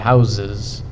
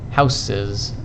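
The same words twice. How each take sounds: First: The first s is a voiced z sound. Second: The first s is an unvoiced s sound. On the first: The speaker calls it right. "I say houses. This S changed sound... it became voiced to become z" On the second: The speaker calls it wrong. "I don't say houses"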